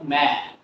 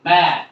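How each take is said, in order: First: Mat as "ম্যাড", last consonant unreleased; silent final T. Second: Said in the usual way. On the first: Shown as a demonstration. Teacher shows learners mat as "ম্যাড", final T silent. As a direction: cut "ম্যাড" off after the vowel. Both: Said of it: "কি বলবো?".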